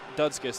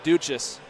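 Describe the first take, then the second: First: The name ends with a 'skis' sound. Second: The name ends with a 'chess' sound. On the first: The speaker calls it wrong. "We've been saying Dudskis. That's not correct" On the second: The speaker calls it right. "So Jared Duchess"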